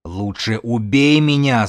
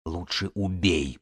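First: Slow, drawn-out cry building in force; desperate yell. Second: Low-energy, slow, soft rasp; hoarse croak. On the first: Pregnant woman begs to be killed, yelling. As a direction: wail the plea, rising toward a scream. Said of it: "заорала беременная". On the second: Pinned woman begs Белка for death, croaking hoarsely. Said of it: "прохрипела Эва". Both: A narrator's reading.

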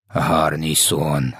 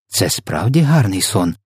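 First: Very slow, low echo of the question; mock exclamation, understated. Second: Slow, mild curiosity in the usual pitch; curious question. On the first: Giant echoes Sophia's question, low drawn-out exclamation. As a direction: stretch both words out low and incredulous. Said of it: "заволав В Д В". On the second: Sophia asks the giant about the dream, mildly curious. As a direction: ask with a touch of wonder. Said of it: "поцікавилася Софія". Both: A narrator's reading.

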